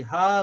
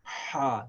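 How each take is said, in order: First: Ha from the chest like English h. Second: Ha constricted in the throat; throaty Ha. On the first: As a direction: breathe Ha from the chest. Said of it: "like the English H". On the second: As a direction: squeeze Ha from the throat. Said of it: "So we say". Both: Shown as a demonstration.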